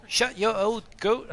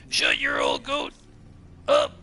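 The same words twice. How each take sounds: First: Higher, slow attempt at an accent; [name]. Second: Very low, slow mock shout; [name]. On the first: Streamer retrying his impression of a chatter, slow failed accent. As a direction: put on a botched accent, drawn out and raised. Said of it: "I can't do an accent". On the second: Streamer impersonating a chatter, deep slow shouted impression. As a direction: growl it out deep and slow in a put-on voice. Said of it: "That was my impersonation".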